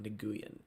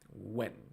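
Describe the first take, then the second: First: The name is said with two syllables. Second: The name is said with one syllable, like when. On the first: The speaker calls it wrong. "I know it's not Nguyen" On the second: The speaker calls it right. "I know it's like when"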